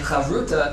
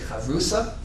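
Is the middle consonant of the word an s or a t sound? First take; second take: t; s. First: The word is said with a t sound. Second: The word is said with an s sound. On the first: This is the more modern form. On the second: This is the traditional form used in most yeshivas.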